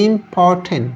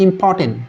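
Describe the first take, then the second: First: "ইম্পর্টেন্ট" broken into three drawn-out syllables; teacher separating each syllable of "ইম্পর্টেন্ট". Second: Said in the usual way. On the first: Shown as a demonstration. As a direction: sound out "ইম্পর্টেন্ট" one syllable at a time. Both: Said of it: "একাধিক syllable হলে".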